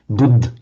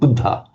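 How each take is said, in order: First: The word ends without its final vowel. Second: The word ends with a short final vowel.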